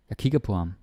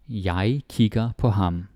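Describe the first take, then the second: First: The sentence is spoken at a fast pace. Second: The sentence is spoken at a slow pace.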